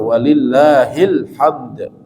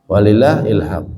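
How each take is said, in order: First: The final d sound is bounced audibly. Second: The final d sound is dropped entirely. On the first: All praise belongs to God. The speaker calls it right. "Karena ada huruf dal, maka kita kol-kolah, kita pantulkan" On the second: It sounds like a different word meaning intuition. The speaker calls it wrong. "banyak diantara kaum muslimin bacanya tidak tepat"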